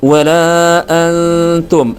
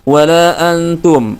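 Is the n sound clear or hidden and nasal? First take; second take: hidden; clear. First: The n is nasal, blurred and held longer. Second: The n is pronounced clearly and quickly. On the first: The speaker calls it right. "nun sukunya atau tanwinnya dibaca dengan samar" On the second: The speaker calls it wrong. "langsung dibaca seperti itu"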